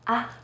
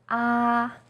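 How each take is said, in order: First: The syllable is light and short. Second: The pitch stays high and level. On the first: "you say it in a more light and short way" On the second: "First tone, yi sheng, is high and steady"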